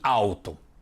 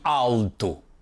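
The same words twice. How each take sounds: First: The first syllable ends with a U-like sound. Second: The first syllable ends with a clear L sound. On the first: This is how it sounds in most Brazilian states. "na maioria dos estados a pronúncia é igual" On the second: This is how it sounds in southern Brazil. "especialmente no sul do Brasil, elas se pronunciam de forma muito diferente"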